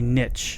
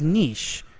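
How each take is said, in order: First: It is said in a plain American way. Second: It is said in a French-sounding way. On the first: This is the way people always said it. The speaker calls it right. "we used to say niche" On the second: This is the newer way people say it online. The speaker calls it wrong. "Now everybody says niche. Like uh, we're not French"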